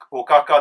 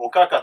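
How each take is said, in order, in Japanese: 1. ピッチは下がらず、平板です。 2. 単語の中でピッチが下がります。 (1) "平板が載ってます" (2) "現状多分おかかって言ってる人はかなり増えてきてますね"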